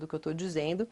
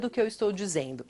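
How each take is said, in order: First: The mouth barely moves and the sounds are mumbled. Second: The mouth moves fully and the sounds are crisp. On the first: The speaker is not very sure of what she says. The speaker calls it wrong. "meia boca, onde eu quase não movimento" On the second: The speaker is completely sure of what she says. The speaker calls it right. "ajuste equilibrado de articulação preciso"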